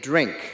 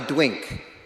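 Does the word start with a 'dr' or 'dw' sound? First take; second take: dr; dw. First: The word begins with a 'dr' sound. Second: The word begins with a 'dw' sound. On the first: The speaker calls it right. "He couldn't say drink" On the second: The speaker calls it wrong. "He couldn't say drink, and he said it that way"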